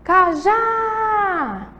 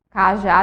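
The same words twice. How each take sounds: First: CAJÁ called high with a long held JÁ; calling the word out. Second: Said in the usual way. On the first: Shown as a demonstration. Teacher calls the word for pupils, long high JÁ in Cajá. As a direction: call out "Cajá", stretching the final syllable. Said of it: "Vamos chamar elas". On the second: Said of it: "a gente tem aí a sílaba tônica".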